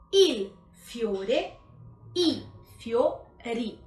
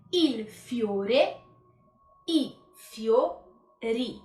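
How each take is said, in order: First: Il fiore, i fiori said slowly and carefully, with i fiori drawn out; Italian pronunciation. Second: Il fiore, i fiori repeated very slowly, each syllable clear; Italian pronunciation again. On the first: Teacher modelling the Italian singular and plural for students, slow careful pronunciation. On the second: Teacher repeating the plural so students copy it, very slow careful pronunciation. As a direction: model i fiori once more, drawn out syllable by syllable. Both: Shown as a demonstration. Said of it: "Atenção à pronúncia de novo".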